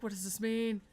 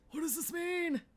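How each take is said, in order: First: Loud, baffled demand; loud disbelief. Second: High, loud shriek of confusion; frantic shriek. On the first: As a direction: demand an answer at full volume. Baffled by the game's twist. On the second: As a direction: shriek the question in a panic. Repeats the question, more frantic. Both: Real, not acted.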